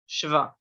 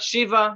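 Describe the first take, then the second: First: No vowel separates the sh and v. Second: An ee vowel separates the sh and v. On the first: The speaker calls it right. "just shva" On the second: The speaker calls it wrong. "Not shiva"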